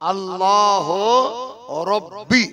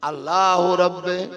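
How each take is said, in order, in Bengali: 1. শেষ শব্দটি 'ee' স্বরধ্বনি দিয়ে শেষ হয়েছে। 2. শেষ শব্দটি 'eh' স্বরধ্বনি দিয়ে শেষ হয়েছে। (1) "এটা অ্যাকচুয়ালি উচ্চারণ হচ্ছে আল্লাহ রব্বি" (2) "আমি কি বললাম?"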